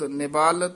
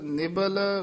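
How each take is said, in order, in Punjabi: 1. ਦੂਜਾ ਸਵਰ ਲੰਬਾ ਹੈ। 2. ਦੂਜਾ ਸਵਰ ਛੋਟਾ ਹੈ। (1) "ਨਿਬਾਲ ਤੇ ਸਬਾਲ ਨਹੀਂ ਕਹਿਣਾ" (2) "ਇੰਦਰੀ ਸਬਲ ਨਿਬਲ ਵਿਵੇਕ ਬੁੱਧ"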